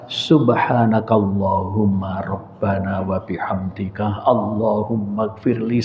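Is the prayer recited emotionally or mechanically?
emotionally. It is recited with deep, tearful emotion. The words are understood and felt sincerely. The speaker calls it right. "kalau faham ... sambil nangis"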